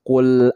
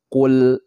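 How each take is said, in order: Both takes have the same delivery.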